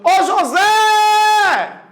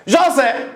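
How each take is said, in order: First: High shout with a very long "Zé"; calling out. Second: Said in the usual way. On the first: Shown as a demonstration. Teacher hailing childhood friend across street, calling out. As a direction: holler "José" across the street. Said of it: "Lá do outro lado da rua".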